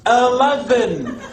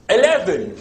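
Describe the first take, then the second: First: It is said in a Scottish accent. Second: It is said in a put-on English accent.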